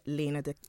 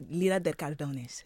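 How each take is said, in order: First: Said in the usual way. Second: Spanish accent. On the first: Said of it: "if I put my little Spanish accent on there". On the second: Shown as a demonstration. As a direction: say the name with a light Spanish accent. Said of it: "if I put my little Spanish accent on there for ya".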